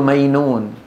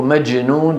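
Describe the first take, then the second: First: مينون with y in place of j; jim as ya. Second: Said in the usual way. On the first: Retold or imitated. Teacher imitates the Gulf habit, jim as ya. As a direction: turn majnun into مينون with a y glide. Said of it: "يقلبون الجيم إيه". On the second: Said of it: "بدل من أن يقولوا".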